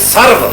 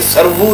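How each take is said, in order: First: The word is said with one syllable. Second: The word is said with two syllables. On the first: The speaker calls it right. "ज़िपै करे सर्व" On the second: The speaker calls it wrong. "ये सरबू नहीं है। ... ये सरबू गलत है"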